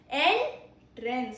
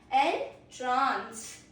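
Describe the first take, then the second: First: The stress is on the first syllable. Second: The stress is on the second syllable. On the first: A door or opening used to enter. "So first syllable stress" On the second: To fill with wonder and delight. "it has stress on second syllable"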